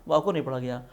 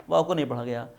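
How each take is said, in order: The two takes are said the same way.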